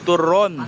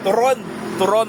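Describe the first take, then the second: First: "Turon" loud and drawn out, falling at the end; correct pronunciation. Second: "Turon" loud, final syllable rising; careful pronunciation. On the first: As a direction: model "Turon" slowly with a firm falling tune. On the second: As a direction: demonstrate "Turon" with a loud upward lilt. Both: Shown as a demonstration. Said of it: "Dapat tama yung pronunciation nyo".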